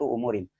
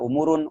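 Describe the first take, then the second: First: The word ends with the vowel i before n. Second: The word ends with the vowel u before n. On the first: The speaker calls it right. "dibaca kasroh" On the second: The speaker calls it wrong. "Tidak baca umurun"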